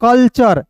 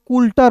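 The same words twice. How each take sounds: First: कल्चर as "kal-char", short vowel and CH; correct reading. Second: कुल्टर said with "kul" and a hard T, "kul-tar"; common misreading. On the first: Teacher answering how culture is read, कल्चर as "kal-char". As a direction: model कल्चर clearly, "kal" then "char". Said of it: "क्या पढ़ेंगे दोस्तों". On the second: Teacher showing learners how many misread culture, wrong reading कुल्टर "kul-tar". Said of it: "बहुत लोग कुल्टर पढ़ लेता है". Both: Shown as a demonstration.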